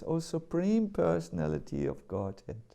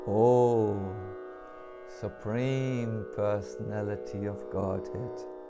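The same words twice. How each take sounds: First: It is said at normal speed. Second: It is said very slowly.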